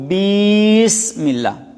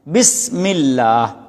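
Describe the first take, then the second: First: The first vowel is drawn out long. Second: The first vowel is short. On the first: The speaker calls it wrong. "बा को लंबा कर दिया, बढ़ा दिया" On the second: The speaker calls it right. "हम बिस्मिल्लाह पढ़ते हैं"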